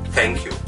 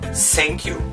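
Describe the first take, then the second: First: The first sound is a soft th. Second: The first sound is not a soft th. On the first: The speaker calls it right. "instead of thank you" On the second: The speaker calls it wrong. "a foreign English speaker say thank you instead of"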